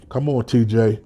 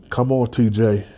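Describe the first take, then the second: No difference in how they are said.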